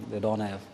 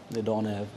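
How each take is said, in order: Both takes have the same delivery.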